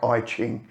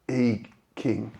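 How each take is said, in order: First: The second word starts with a ch sound. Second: The second word starts with a k sound. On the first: "It's spelt like I Ching" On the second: "I heard it is pronounced I King"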